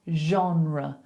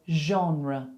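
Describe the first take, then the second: Both takes have the same delivery.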